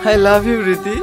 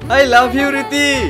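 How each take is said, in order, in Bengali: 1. এটি জোরে বলা হয়েছে। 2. এটি খুব জোরে বলা হয়েছে, প্রায় চিৎকার করে। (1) "জোরে বলো" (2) "আরো জোরে বলো।"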